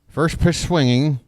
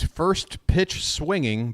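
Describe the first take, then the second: First: The words slur together into one garbled run. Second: The words are clearly separated and enunciated. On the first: The speaker calls it wrong. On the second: The speaker calls it right.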